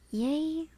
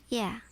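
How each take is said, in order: First: It is said like the word yay. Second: It is said like the word yeah. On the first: "Pronounce like yay" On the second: "I keep pronouncing it as yeah"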